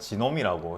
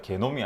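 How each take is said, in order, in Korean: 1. 이 단어는 J 소리로 시작합니다. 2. 이 단어는 딱딱한 G 소리로 시작합니다. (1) "영어식 발음으로서" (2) "독일어, 그러니까 독일, 즉 유럽 쪽의 표현"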